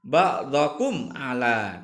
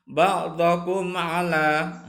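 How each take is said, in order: First: Ba'dakum ala again slow with a clear mim; slow, clean, no hum. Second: Ba'dakum ala with the mim said clearly, no hum, slow. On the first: Teacher repeating the example to pupils, slowly. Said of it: "harus dibaca dengan jelas". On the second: Teacher reciting the idhar example to pupils, slowly. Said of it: "contoh idhar safawi". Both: Shown as a demonstration.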